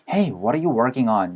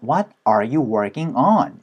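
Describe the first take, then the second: First: It is said quickly and casually. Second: It is said slowly and carefully.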